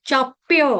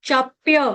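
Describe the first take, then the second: The two takes are said the same way.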